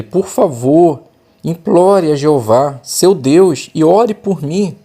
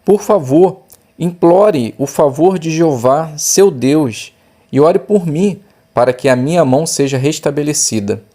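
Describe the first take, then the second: First: Slow, higher begging plea; pleading. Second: A touch of a begging king, pitch raised; pleading king. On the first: Shown as a demonstration. Teacher demonstrating the desperate king pleading with the prophet, slow high plea. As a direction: beg for help, drawn out and urgent. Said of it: "olha só o pedido dele". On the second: Acted. King begging the man of God for healing, mild plea. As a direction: let the king plead with some urgency.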